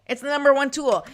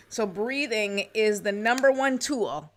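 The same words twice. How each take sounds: First: Louder, higher "number one tool"; emphatic repeat. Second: Said in the usual way. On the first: Real, not acted. Coach insists to viewers on breathing, emphatic. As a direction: drive home "number one tool" with more force.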